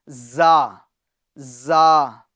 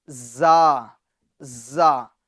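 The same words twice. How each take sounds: Both takes have the same delivery.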